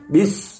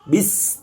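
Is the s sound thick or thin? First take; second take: thick; thin. First: The s is thick, without spread lips. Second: The s is thin, with lips spread back. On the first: The speaker calls it wrong. "tidak bis. Kalau bis, maka dia akan jadi tebal" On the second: The speaker calls it right. "bentuk bibir kita harus tertarik"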